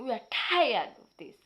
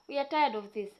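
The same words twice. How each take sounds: First: It is said angrily, with power. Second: It is said calmly, without anger.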